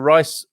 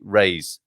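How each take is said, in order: First: The name rhymes with 'ice'. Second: The name rhymes with 'race'. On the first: The speaker calls it wrong. "I was going to go for Rice" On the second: The speaker calls it right. "it should be Raise"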